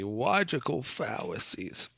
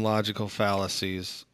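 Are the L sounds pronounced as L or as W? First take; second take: W; L. First: The L sounds are pronounced like W. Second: The L sounds are pronounced as normal L.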